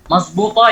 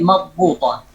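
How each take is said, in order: First: "Mazbuta" with a z sound in the Egyptian way; Egyptian pronunciation. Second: "madbuta" with the classical emphatic d, slowly; standard Arabic pronunciation. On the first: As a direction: say "Mazbuta" with z instead of dh, Cairo style. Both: Shown as a demonstration. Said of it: "yani madbuta".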